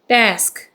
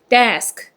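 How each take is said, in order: First: It is said as a single syllable. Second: It is said as a single syllable.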